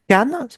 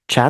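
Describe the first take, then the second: First: The word begins with a K sound. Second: The word begins with a CH sound.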